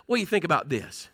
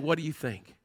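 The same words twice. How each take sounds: First: Fast, conversational question; quick and offhand, as if chatting with a friend; quick casual rephrase. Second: Said in the usual way. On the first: Shown as a demonstration. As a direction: toss it out quickly like a friend asking. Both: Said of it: "Then I like to say it like this".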